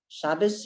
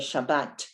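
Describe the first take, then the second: First: The word ends with an S sound. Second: The word ends with a T sound. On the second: "We say Shabbat, and there's a Tav at the end"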